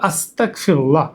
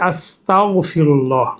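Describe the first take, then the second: First: The consonant after 'asta' is a k sound. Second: The consonant after 'asta' is a gh sound. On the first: I seek disbelief. The speaker calls it wrong. "ভুল উচ্চারণ হলো আস্তাগফিরুল্লাহ, অর্থাৎ কাফ অথবা বাংলা উচ্চারণ হয় ক দিয়ে" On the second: I seek forgiveness from God. The speaker calls it right. "এটার আসল উচ্চারণ হবে আস্তাগফিরুল্লাহ, সেটা হচ্ছে গইন দিয়ে"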